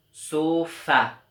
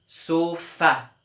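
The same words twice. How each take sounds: First: Sofa with a loud final fa; stress on the rhyme again. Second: Sofa with a loud, higher final fa; stress on the rhyme. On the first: Teacher repeating sofa so pupils hear the fa. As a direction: repeat sofa, hitting the last syllable. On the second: Teacher showing that sofa ends in fa, final syllable loud. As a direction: lean on the end of sofa. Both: Shown as a demonstration. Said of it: "On entend bien la syllabe fa".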